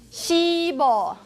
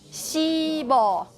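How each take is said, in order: No difference in how they are said.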